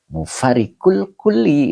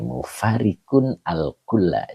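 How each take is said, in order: First: The final word ends with an 'i' vowel. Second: The final word ends with an 'a' vowel. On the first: The word is treated as a possessive complement. The speaker calls it wrong. "Jadi jangan" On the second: The word is the object of the verb. The speaker calls it right. "ini nih"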